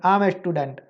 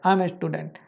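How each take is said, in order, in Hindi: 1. 'I' और 'am' जल्दी से एक साथ जुड़कर बोले जाते हैं। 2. 'I' और 'am' जल्दी से एक साथ जुड़कर बोले जाते हैं।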